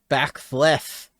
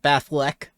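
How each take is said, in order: First: The word ends with a th sound. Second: The word ends with a k sound. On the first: The speaker calls it right. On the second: The speaker calls it wrong. "Not Bathlek"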